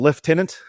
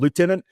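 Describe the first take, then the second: First: It is said the Australian way. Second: It is said the American way. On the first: This is how the speaker's home country says it. "what we call" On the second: This is how people in the US say it. "what they here in the U S call"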